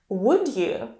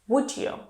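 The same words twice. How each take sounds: First: The d and y are kept separate. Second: The d and y merge into a j sound.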